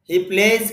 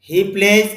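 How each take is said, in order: The two takes are said the same way.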